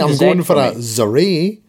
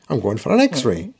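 First: X-ray begins with a 'z' sound. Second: X-ray begins with an 'eks' sound. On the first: The speaker calls it wrong. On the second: The speaker calls it right.

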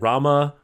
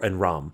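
First: The name ends with a final vowel sound. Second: The name ends without a final vowel sound. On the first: The speaker calls it wrong. "Those are all silent A's" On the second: The speaker calls it right. "or Ram"

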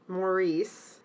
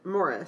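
First: The name is said as Maurice. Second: The name is said as Morris. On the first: This is how the hosts have been saying it. "we've been pronouncing it Maurice" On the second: This is how some other people say it. "some people pronounce it Morris"

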